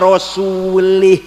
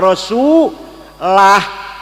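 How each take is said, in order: First: The last word ends with an i vowel. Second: The last word ends with a u vowel. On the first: God disowns the idolaters and also the messenger. The speaker calls it wrong. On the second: God and the messenger both disown the idolaters. The speaker calls it right. "Yang benar"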